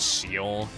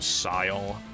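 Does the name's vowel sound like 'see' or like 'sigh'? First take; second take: see; sigh. First: The vowel sounds like 'see'. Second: The vowel sounds like 'sigh'. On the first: The speaker calls it right. "the correct way of saying it is Seal" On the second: The speaker calls it wrong. "I would always call him [name]"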